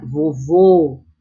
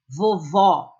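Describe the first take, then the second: First: "vovô" with a closed final ô, stressed and lower. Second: "vovó" with a clear open final ó, stressed. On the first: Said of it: "vogais tônicas com timbre fechado". (vovô com o ô fechado e tônico) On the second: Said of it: "vogais tônicas com timbre aberto". (vovó com o ó aberto e tônico) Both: Shown as a demonstration.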